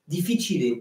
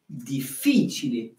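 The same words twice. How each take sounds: First: The stress is on the first syllable. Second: The stress is on the second syllable. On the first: The speaker calls it wrong. "mais vous ne dites pas comme ça" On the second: The speaker calls it right. "l'accent se décale jusqu'à l'antépénultième syllabe"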